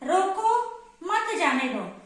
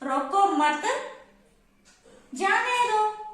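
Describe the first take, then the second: First: There is a pause after the first word. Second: There is a pause after the second word. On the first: Stop the person; do not let them go. "मैं रुक गई यहां पे" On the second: Do not stop the person; let them go. "मैं यहाँ रुकूंगी"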